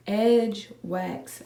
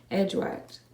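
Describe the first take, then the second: First: "Edge Wax" in two separate, deliberate words, clear "ks"; careful correction. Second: "Edge Wax" said quickly, the end of Wax slurred to "wakt"; fumbled pronunciation. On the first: Vlogger retrying the product name, carefully separated "Edge Wax". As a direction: correct yourself, spacing out "Edge... Wax" with a crisp ending. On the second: Vlogger tripping over a product name, fumbled "Edge Wax". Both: Real, not acted. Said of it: "Oh my gosh".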